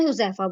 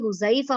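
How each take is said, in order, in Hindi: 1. इसमें बीच का स्वर उर्दू जैसा सपाट है। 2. इसमें बीच का स्वर अरबी जैसा नरम, सरकता हुआ है। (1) "हम उर्दू में हुज़ैफ़ा बोलते हैं ना" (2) "अरबिक नेम है ये हुज़ैफ़ा होता है"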